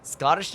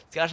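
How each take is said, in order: First: "Scottish" slipping out as "Scor-tish"; slip of the tongue. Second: Said in the usual way. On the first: Real, not acted. Streamer fumbling the word Scottish, slip of the tongue. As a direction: stumble on "Scottish" with an R in it. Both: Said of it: "no, Scot".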